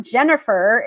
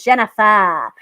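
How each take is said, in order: First: Said in the usual way. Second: Imitated Massachusetts accent, "Jennifer" without its r. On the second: Comic quoting Jenny's mom on the name, in a Massachusetts accent. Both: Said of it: "you know, with the accent".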